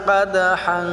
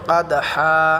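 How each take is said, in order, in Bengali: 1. শেষে নাসিক্য ন ধ্বনি। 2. শেষে টানা স্বরধ্বনি, ন নেই। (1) "যদি না থামি, তাহলে আমরা এটা গুণনা করব।" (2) "এখানে থামলে আমরা এক আলিফ টেনে পড়ব।"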